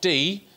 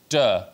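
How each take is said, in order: First: The word is pronounced the English way. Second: The word is pronounced the Welsh way. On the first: The speaker calls it wrong. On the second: The speaker calls it right.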